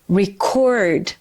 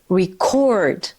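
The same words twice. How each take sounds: Both takes have the same delivery.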